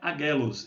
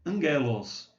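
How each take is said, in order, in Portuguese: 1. Não tem som de n antes do g. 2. Tem um som de n antes do g. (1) "aqui não é agelos" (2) "é angelos"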